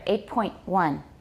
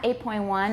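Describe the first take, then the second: First: A long stop is held after point. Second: The t in point is dropped, no stop. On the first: The speaker calls it right. "Can you hear that long stop there?" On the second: The speaker calls it wrong. "It's not eight point one"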